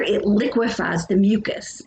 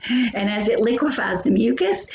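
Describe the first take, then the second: First: Said in the usual way. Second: Sassy "mucus" with a lift at the end; mucus with attitude. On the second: Shown as a demonstration. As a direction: give "mucus" some sass, ending up. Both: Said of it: "you kinda have to say it like that when you say mucus".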